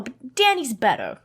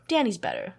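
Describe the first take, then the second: First: Said in the usual way. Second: Danny's better said softer and lower, fading; a touch of tearful pleading; softer, emotional. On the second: Retold or imitated. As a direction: let it sink into quiet feeling. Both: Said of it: "kind of emotional".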